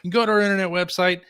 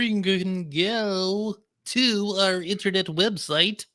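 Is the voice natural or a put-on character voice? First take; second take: natural; put-on. First: It is said in a natural everyday voice. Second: It is said in a put-on character voice.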